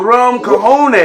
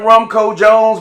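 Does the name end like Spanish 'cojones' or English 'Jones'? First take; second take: cojones; Jones. First: The name ends with the Spanish word cojones. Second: The name ends with the English word Jones. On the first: The speaker calls it right. "like you were telling me, it's a" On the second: The speaker calls it wrong. "I used to say all the time"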